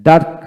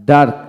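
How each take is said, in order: Both takes have the same delivery.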